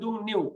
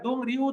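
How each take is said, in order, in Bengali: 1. দ্বিতীয় অক্ষরটি N ধ্বনি দিয়ে শুরু হয়। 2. দ্বিতীয় অক্ষরটি R ধ্বনি দিয়ে শুরু হয়। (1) "এটার উচ্চারণ হবে দুং নিউ" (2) "এটার দুং রিউ উচ্চারণ করবেন না"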